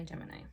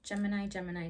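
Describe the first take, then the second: First: Quieter, lower final Gemini; trailing off. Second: Said in the usual way. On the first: Shown as a demonstration. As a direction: Gemini dropped low and soft. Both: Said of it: "Describe yourself in three words".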